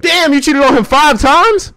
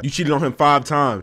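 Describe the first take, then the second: First: Much higher, louder and slower, in disbelief; shocked disbelief. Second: Said in the usual way. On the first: Real, not acted. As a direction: drag out "five times" in loud shock.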